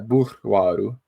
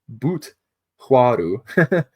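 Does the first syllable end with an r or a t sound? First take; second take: r; t. First: The first syllable ends with an r sound. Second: The first syllable ends with a t sound. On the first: The speaker calls it right. "but it's uh" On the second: The speaker calls it wrong. "I mispronounced it because I had it misspelled"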